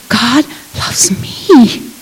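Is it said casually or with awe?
with awe. It is said with deep amazement and wonder.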